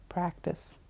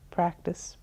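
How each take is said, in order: First: Trailing off. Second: Said in the usual way. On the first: Real, not acted. Repeated word, trailing off.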